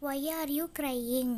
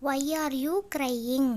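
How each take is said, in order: First: Said in the usual way. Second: "you" drawn out and rising, then "crying" firmly; slow model question, lifting and stretching "you"; stress on YOU. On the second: Shown as a demonstration. English teacher repeats the question for learners, stretching "you".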